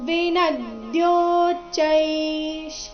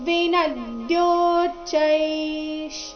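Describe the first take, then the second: The two takes are said the same way.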